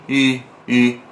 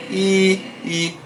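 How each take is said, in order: First: "I" as "ee" with unsmiling, neutral lips; serious I. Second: "I" as an "ee" sound with spread, smiling lips. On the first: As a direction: say "I" with a straight face. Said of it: "Se eu falar um I sério". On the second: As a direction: smile while saying "I". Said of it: "eu dou esse sorrisinho". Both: Shown as a demonstration.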